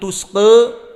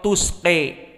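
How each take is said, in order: First: The final vowel is halfway between a and e. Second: The final vowel is strongly tilted toward e. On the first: This is the Warsh reading from Nafi'. "dibaca Wars an Nafi' dengan taklil" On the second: This is the Al-Kisai reading. "Al-Kisai dengan imalah al-kubra"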